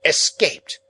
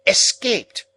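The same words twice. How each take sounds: First: Loud, higher snappish shout; sharp impatient sister. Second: Higher and louder snapping repeat; snappish repeat. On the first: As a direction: bark it out. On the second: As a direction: snap it again, pitched higher. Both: Acted. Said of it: "said snappishly".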